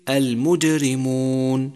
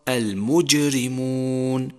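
First: The j drifts toward a d sound. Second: The j is a clear true j. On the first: The speaker calls it wrong. "حتى لا تصير دالا، مثل المجرمون" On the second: The speaker calls it right. "والصواب المجرمون"

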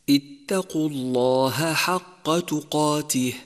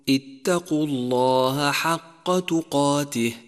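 Both takes have the same delivery.

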